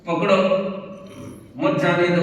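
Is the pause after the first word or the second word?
first word. The pause comes after the word पकड़ो.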